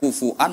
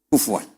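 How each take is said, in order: First: It is said with a glottal stop, hamzah. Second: It is said with a w, Quraysh style.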